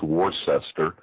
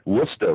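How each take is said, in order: First: The name is said fully, as it is spelled. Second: The name is said short, as two syllables. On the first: "if you pronounce it phonetically" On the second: "you pronounced it exactly right"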